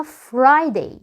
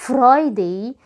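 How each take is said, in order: First: Friday slowly with an English R. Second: Friday with an Arabic-style R; wrong Arabic R. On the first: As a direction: correct Friday with a smooth English R after F. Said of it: "اسمها". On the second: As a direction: mispronounce Friday with the Arabic ra after F. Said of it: "مش بنقول". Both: Shown as a demonstration.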